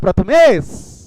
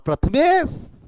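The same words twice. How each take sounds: First: The name is shouted very loudly. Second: The name is called somewhat louder.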